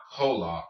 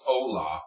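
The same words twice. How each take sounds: First: Hola with an audible English H; wrong hola. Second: Hola with no H, opening on the vowel; correct hola. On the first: Teacher shows the mistake to avoid, H sounded in hola. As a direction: pronounce the H at the start of hola. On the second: Teacher shows the right way, silent-H hola. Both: Shown as a demonstration. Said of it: "and pronounce the H".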